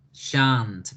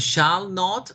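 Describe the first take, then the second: First: Shan't said as one clipped word; short shan't; contracted shan't. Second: Said in the usual way. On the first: Shown as a demonstration. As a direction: model shan't. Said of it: "Very good". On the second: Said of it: "decimos shall not o decimos shan't".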